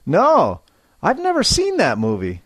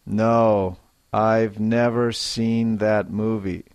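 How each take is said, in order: First: Higher, fast, stress on never; emphatic denial. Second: Said in the usual way. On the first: Shown as a demonstration. Teacher modelling a firm no for students. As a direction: insist you never saw it. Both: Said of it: "a little more feeling and life".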